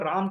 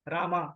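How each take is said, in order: First: The name ends on the bare final consonant. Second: The name ends with a long aa vowel. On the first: This is how it is said in the north. "अपना उत्तर भारत में हम भगवान राम को राम कहते हैं" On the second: This is how it is said in the south. "वही दक्षिण में जाएंगे तो आपको मिलेगा रामा"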